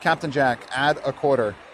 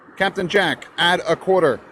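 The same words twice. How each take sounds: First: It is said at a normal volume. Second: It is said loudly and angrily.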